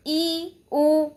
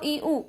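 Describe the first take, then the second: First: ई, उ drawn out as long ee and oo; long vowels. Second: ई, उ said as short, quick i and u; short vowels. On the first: Teacher contrasting vowel lengths, ई, उ held long. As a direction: hold each vowel in ई, उ. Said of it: "ये दीर्घ है". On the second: Teacher contrasting vowel lengths, ई, उ kept short. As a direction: cut ई, उ short without leaning on them. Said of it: "ये ह्रस्व है". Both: Shown as a demonstration.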